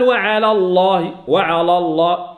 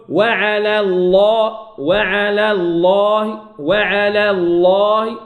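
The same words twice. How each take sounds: First: وعلى الله with the lam of على made heavy; wrong heavy lam. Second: وعلى الله slowly, light lam in وعلى, heavy lam in الله; correct light lam. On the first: Teacher demonstrates the common error in وعلى الله. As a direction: thicken the lam of وعلى by mistake. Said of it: "غلط". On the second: Teacher models the correct reading slowly for students. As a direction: keep وعلى thin, then full الله. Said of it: "أرقق". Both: Shown as a demonstration.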